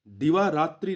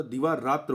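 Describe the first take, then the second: First: दिवारात्रि ending in a clear "tri"; wrong word form. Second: दिवारात्र ending in "tra", no i; corrected word form. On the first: Teacher showing students the mistaken form, दिवारात्रि with final i. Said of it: "दिवारात्रि नहीं होता". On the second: Teacher correcting the test word, दिवारात्र without final i. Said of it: "दिवारात्र होता है". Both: Shown as a demonstration.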